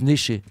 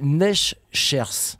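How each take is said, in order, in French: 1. Ça sonne comme Néché, le s final est muet. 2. Il se lit comme il est écrit, le s final se prononce. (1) "mais ça se prononce Neschers" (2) "ça s'écrit Neschers"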